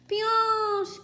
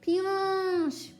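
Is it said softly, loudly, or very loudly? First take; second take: very loudly; softly. First: It is shouted very loudly. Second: It is said at a normal, softer volume.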